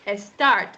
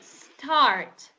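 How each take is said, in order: First: An extra vowel sound comes before the s. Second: The word begins directly with the s sound. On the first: The speaker calls it wrong. "you don't say a start" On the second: The speaker calls it right. "you say start"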